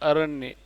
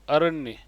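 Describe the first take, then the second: No difference in how they are said.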